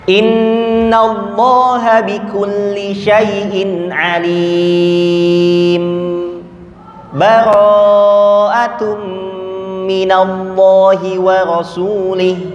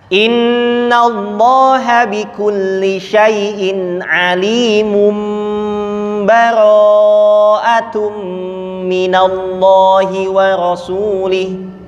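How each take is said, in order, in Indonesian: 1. Berhenti sebentar sebelum bara'atum tanpa mengambil napas. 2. Langsung sambung ke bara'atum tanpa berhenti sama sekali. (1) "berhenti tidak mengambil nafas"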